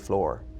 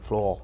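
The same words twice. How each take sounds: First: It is said with a hard Irish R. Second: It is said in an American accent.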